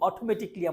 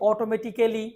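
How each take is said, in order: First: The ending is said as one syllable, 'kli'. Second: The ending is said as two syllables, 'ka-lly'. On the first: The speaker calls it right. "এই যে আমি কিন্তু বললাম অটোমেটিকলি" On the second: The speaker calls it wrong. "আমরা কি বলি"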